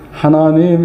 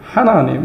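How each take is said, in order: First: It is said with standard Korean intonation. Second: It is said with a regional dialect intonation. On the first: The speaker calls it right. "하나님 이렇게 안 하고" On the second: The speaker calls it wrong. "하나님 이렇게 하는 걸 너무 듣기가 거북한 거예요"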